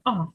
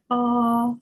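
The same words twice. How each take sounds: First: The pitch moves abruptly and sharply. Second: The pitch stays high and level. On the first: "Тон різкий" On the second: "Перший рівний, ровний, високий"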